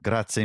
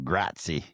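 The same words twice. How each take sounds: First: It is said with a native-like Italian accent. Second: It is said with a heavy American accent. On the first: The speaker calls it right. "I really pride myself on my pronunciation" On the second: The speaker calls it wrong. "so many Americans go over there and they go grazie"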